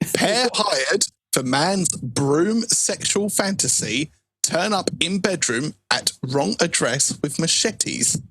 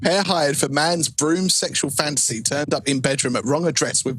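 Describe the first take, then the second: First: It is read slowly. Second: It is read at normal speed.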